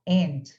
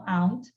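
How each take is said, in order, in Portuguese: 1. A palavra é pronunciada do jeito americano. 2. A palavra é pronunciada de um jeito não americano. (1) "no inglês americano normalmente falam uh, aunt... Como se não tivesse esse U aí" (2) "tem pessoas no inglês que falam aunt"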